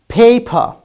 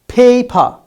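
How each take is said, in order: The two takes are said the same way.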